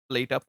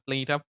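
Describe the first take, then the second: No difference in how they are said.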